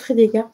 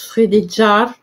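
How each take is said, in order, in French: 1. La consonne du milieu se prononce comme un 'g' dur. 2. La consonne du milieu se prononce comme un 'j' doux. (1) "je vais dire Frédégaire" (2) "ça se prononce Frédéjar"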